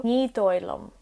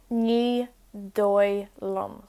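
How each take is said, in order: First: Said in the usual way. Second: Ní dóigh liom drawn out slowly; slow it down for learners; slow teaching repeat. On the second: Shown as a demonstration. Teacher repeats Ní dóigh liom slowly for learners.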